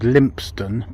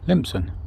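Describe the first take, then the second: First: The name ends with a full 'stone' sound. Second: The name ends with a short 'son' sound. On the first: "There's a place called Lympstone" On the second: "it's referred to some as Lympson? Lympson. No Lympstone, just Lympson"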